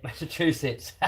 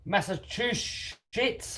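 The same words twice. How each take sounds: First: "Massachusetts" said quicker with a laugh, still a little off; laughing second try. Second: "Massachusetts" drawn out very slowly, stumbling syllable by syllable; butchered pronunciation. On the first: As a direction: have another go at "Massachusetts", laughing at yourself. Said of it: "I can't even say it". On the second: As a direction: sound out "Massachusetts" slowly and get it wrong. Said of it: "Completely butchered that up". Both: Shown as a demonstration.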